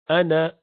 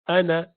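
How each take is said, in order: Both takes have the same delivery.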